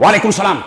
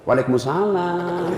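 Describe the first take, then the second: First: It is said in a firm, curt way. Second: It is said in a sweet, soft way.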